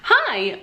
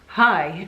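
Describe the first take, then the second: First: It is said in a very high pitch. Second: It is said in a normal pitch.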